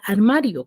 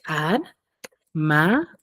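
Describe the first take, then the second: First: Said in the usual way. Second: "Ar-ma-rio" spoken slowly, syllable by syllable; syllables split. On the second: Shown as a demonstration. Teacher splits "Ar-ma-rio" for pupils, slow and separated. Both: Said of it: "¿Cuántas sílabas tiene?".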